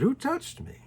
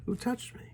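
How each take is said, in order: First: Higher, questioning call; a sudden high "who touched me" asked of the crowd; searching question. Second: Quieter, puzzled echo; a hushed second "who touched me"; softer repeat. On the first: Jesus turns to the crowd. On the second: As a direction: ask it again softly, to yourself. Jesus repeats the question. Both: Acted.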